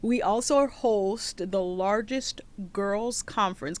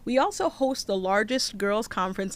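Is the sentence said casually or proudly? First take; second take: proudly; casually. First: It is said boldly, with proud emphasis. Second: It is said in a plain, matter-of-fact way.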